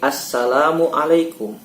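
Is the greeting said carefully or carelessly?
carefully. It is said carefully and deliberately. The greeting is said as a sincere prayer. The speaker calls it right.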